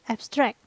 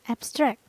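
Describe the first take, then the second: First: The stress is on the second syllable. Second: The stress is on the second syllable.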